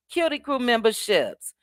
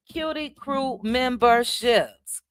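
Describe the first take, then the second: First: Said in the usual way. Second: Slow, stretched-out syllables; drawn-out announcement. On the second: Real, not acted. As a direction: announce each word slowly, letting it linger. Name drawn out, then repeated normally.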